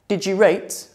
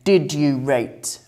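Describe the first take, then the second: First: Did and you merge into a J sound. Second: Did and you are pronounced as separate words.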